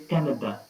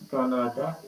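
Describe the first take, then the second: First: The word is said quickly and excitedly. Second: The word is said slowly and flatly. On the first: The speaker calls it right. "with a little excitement or in a hurry" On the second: The speaker calls it wrong. "not Canada"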